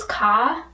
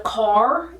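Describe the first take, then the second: First: Car said as "ka", r dropped; ka without the r. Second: Said in the usual way. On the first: Retold or imitated. Imitating New England speech, r-less ka. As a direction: drop the r in car, "ka". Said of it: "it's ka". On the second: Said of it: "instead of car".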